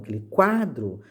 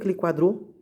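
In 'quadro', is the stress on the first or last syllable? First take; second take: first; last. First: The stress in quadro is on the first syllable. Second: The stress in quadro is on the last syllable. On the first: The speaker calls it right. "Então o quá ela é mais forte" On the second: The speaker calls it wrong. "Você não fala o quadro?"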